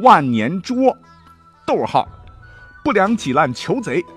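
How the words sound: There is a break after 捉 before 不良.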